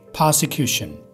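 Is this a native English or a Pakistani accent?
native English. It is said with a native English accent. "गोरे से बोलेंगे"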